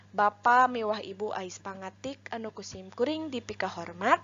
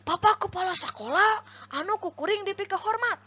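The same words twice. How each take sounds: First: Even, respectful speech intonation on "Bapa miwah Ibu Ais Pangatik"; composed orator's cadence through "dipika hormat"; fitting intonation. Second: High, exaggerated swooping tune on "Bapak kepala sekolah anu kukuring dipika hormat"; sing-song "Bapak kepala sekolah", pitched far too high; unfitting intonation. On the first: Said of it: "contoh lentong anu merenah". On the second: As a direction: demo a badly misplaced, high wavy intonation on "dipika hormat". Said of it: "lentong anu teu merenahna seperti kumaha". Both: Shown as a demonstration.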